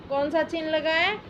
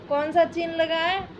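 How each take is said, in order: Both takes have the same delivery.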